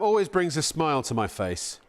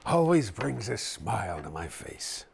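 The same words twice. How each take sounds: First: It is read in an ordinary speaking voice. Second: It is said in a put-on villain character voice.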